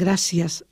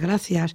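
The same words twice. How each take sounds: First: The 'c' is said as an s sound. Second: The 'c' is said as a th sound. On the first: This is the seseo pronunciation of southern regions. "que dicen gracias" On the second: This is the distinguishing standard pronunciation. "en vez de gracias"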